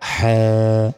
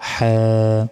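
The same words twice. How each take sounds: Both takes have the same delivery.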